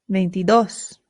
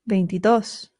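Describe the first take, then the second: No difference in how they are said.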